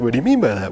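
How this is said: It is said in an annoying voice.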